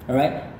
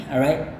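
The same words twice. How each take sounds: The two takes are said the same way.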